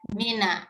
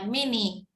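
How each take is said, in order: First: The word ends with an a vowel. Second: The word ends with an i vowel. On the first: The speaker calls it right. "tapi mina ya" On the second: The speaker calls it wrong. "Min dia bukan dibaca mini"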